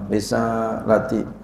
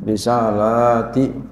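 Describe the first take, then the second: First: The vowel after the L is short. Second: The vowel after the L is long. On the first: It means my message, singular. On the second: It means my messages, plural.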